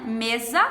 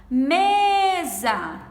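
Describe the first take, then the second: First: Said in the usual way. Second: "Mesa" with a long, strongly stressed first syllable; calling the word. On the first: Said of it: "Qual a sílaba mais forte". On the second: Shown as a demonstration. Teacher shows the strongest syllable, "Mesa" called with "Me" drawn out. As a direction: call out "Mesa", stretching "Me" and letting "sa" fall. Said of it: "Me é a mais forte".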